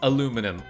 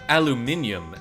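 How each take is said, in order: First: It is said the American way, four syllables. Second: It is said the British way, five syllables.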